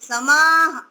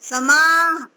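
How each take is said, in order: Both takes have the same delivery.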